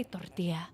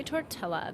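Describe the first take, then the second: First: Tortilla with a Y sound for the double L; Spanish pronunciation. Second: Tortilla with the L sounded, English-style; anglicized pronunciation. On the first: Mock know-it-all correcting someone, Spanish "tortilla" with no L. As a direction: say "tortilla" as tor-TEE-ya, Spanish-style. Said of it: "You're supposed to say". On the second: Mock know-it-all showing the wrong way, anglicized "tortilla" with an L. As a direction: say "tortilla" as tor-TELL-a. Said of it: "That is not right". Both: Shown as a demonstration.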